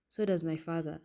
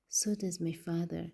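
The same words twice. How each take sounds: First: It is said in a plain voice. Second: It is said in a whining voice.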